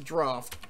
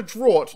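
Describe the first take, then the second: First: Draft said as draft; draft, the right way; corrected pronunciation. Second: Draught said the way he used to say it; draught, old habit; old pronunciation. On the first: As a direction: say draft plainly, short a. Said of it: "That's a draft". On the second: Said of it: "like I used to say it". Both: Shown as a demonstration.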